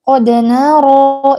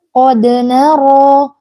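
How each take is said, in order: First: The d is released with a light bounce. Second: The same.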